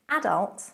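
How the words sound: It is pronounced the British way. "Adult in British"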